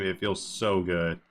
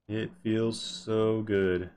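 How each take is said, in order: First: "so" stretched a little, stressed. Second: Very slow, with SO drawn right out; slow, savoring. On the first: Streamer praising a hard-won escape, stress on SO. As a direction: lean slowly on SO. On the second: Streamer relishing a solo escape, slow and savoring. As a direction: savor it, stretching "so" long. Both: Real, not acted.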